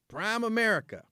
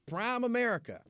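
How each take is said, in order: The two takes are said the same way.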